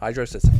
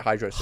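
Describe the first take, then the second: First: Said as two words, hydro and city. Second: Said as one word, rhyming with velocity.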